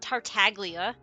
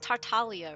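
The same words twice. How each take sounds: First: The G in the name is pronounced. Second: The G in the name is silent. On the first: The speaker calls it wrong. "It's not Tartaglia" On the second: The speaker calls it right. "The G is silent"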